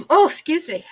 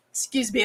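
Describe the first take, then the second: First: Higher and louder right after a sneeze; just sneezed. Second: Said in the usual way. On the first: Real, not acted. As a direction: catch your breath after sneezing. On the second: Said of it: "I'm gonna sneeze".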